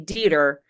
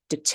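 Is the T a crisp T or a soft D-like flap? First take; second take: soft flap; crisp T. First: The T is a soft, D-like flap. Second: The T is a crisp, released T sound. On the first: The speaker calls it wrong. "This is a common mistake" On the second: The speaker calls it right. "follows the exception rule"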